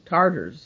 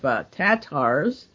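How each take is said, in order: First: The first syllable has an R sound. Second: The first syllable has no R sound.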